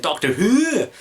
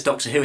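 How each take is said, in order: First: "Doctor Who" in a bad high Scottish voice, "Who" falling; mock Missy saying "Doctor Who" Scottish, pitched high; terrible Scottish impression. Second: Said in the usual way. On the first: Fan imitates Missy saying "Doctor Who", badly faked Scottish accent. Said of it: "that was a terrible re-, um, impression there". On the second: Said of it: "in that sort of Scottish accent".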